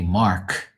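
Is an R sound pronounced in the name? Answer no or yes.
yes. The name is said with an R sound. This is how outsiders say it. "they don't say Mark"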